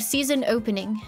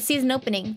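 First: Opening is over-enunciated with a British sound. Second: The words run together, like nopening.

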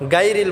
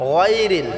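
First: The first consonant is sounded thin and light. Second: The first consonant is sounded full and heavy. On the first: The speaker calls it wrong. "গায়রিল বললে হবে না" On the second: The speaker calls it right. "গাইনটাকে আমরা পুর করে উচ্চারণ করব, মোটা করে উচ্চারণ করব"

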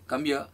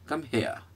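First: Here starts without any breathy h sound. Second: Here starts with a clear breathy h sound. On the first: The speaker calls it wrong. "सांस नहीं टकराए, कम य, wrong" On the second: The speaker calls it right. "It's pronounce हेयर"

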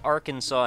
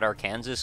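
First: The word ends with a 'saw' sound. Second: The word ends with a 'Kansas' sound. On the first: The speaker calls it right. "Why is it called Arkansas" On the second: The speaker calls it wrong. "and not Arkansas? Because there's another state called Kansas"

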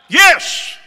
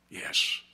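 First: It is said in a shout. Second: It is said in a whisper.

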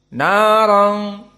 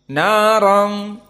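The two takes are said the same way.

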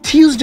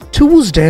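First: It is said with a British pronunciation. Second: It is said with an American pronunciation. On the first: "Tuesday is British" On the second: "Tuesday is American"

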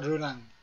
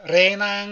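First: The first vowel is a short, neutral 'uh' sound. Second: The first vowel is a clear, open 'eh' sound. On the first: "르낭이죠" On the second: "이거를 레낭, 레낭 그러더라고"

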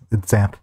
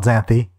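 First: The name ends without any extra vowel sound. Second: The name ends with an extra vowel sound. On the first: The speaker calls it right. "It's Xanth. At least, that's how I say it" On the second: The speaker calls it wrong. "it's not Xanthy"

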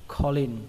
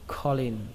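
Both takes have the same delivery.

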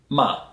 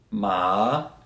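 First: The pitch drops sharply from high to low. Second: The pitch dips low, then rises again. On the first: It means curse. "if you say it in a falling tone" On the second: It means horse. "If I use a falling and rising tone"

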